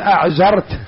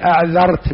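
First: The middle consonant is a 'z' sound. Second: The middle consonant is a 'dh' sound. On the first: The speaker calls it wrong. "قال أعذرت" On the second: The speaker calls it right. "ما يستطيع يقول أعذرت بالذال"

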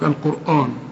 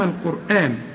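First: The final syllable is heavy and thick. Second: The final syllable is light and thin. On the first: The speaker calls it wrong. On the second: The speaker calls it right.

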